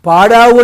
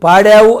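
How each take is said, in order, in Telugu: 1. మధ్య అచ్చు పొడవైన, విచ్చుకున్న 'aa' ధ్వని. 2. మధ్య అచ్చు ముందు నాలుకతో పలికే 'ae' ధ్వని. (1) "పాడావు అన్నావు అనుకోండి అది తెలుగులో సమాసం పాడి ఆవు" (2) "రెండోసారి పాడావన్నామే అంటే యు హ్యావ్ సంగ్ అని అర్థం"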